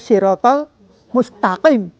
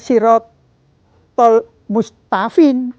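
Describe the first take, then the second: First: The last word has a q sound in the middle. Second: The last word has an f sound in the middle. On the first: The speaker calls it right. "tapi ini dibaca" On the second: The speaker calls it wrong. "tidak dibaca"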